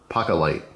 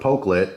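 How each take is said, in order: First: The name sounds like 'pocket light'. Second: The name does not sound like 'pocket light'. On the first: "Kind of like a pocket light" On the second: "I'm going with Pokelit"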